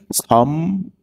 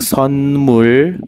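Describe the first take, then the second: First: The first syllable ends in an m sound. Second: The first syllable ends in an n sound. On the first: "yung n nagiging M na rin" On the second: "yung n nagiging M na rin"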